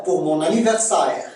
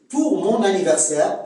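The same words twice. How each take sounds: First: "anniversaire" ending in a gliding sa-ère; Québécois diphthong. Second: Said in the usual way. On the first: Shown as a demonstration. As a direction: glide the end of "anniversaire" into ah-eh. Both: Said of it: "c'est A E".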